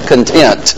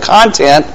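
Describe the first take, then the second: First: The stress is on the second syllable. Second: The stress is on the first syllable. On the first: Being satisfied. "The content of contentment" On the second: What something contains. "a word that is spelled the same way but has two different pronunciations"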